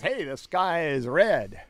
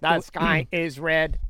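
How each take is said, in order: First: It is said in a natural, human-sounding voice. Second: It is said in a flat, old-school robot voice.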